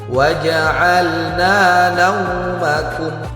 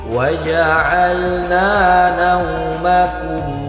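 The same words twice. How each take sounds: First: The 'au' in naumakum is pressed hard. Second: The 'au' in naumakum is soft and light. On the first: The speaker calls it wrong. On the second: The speaker calls it right.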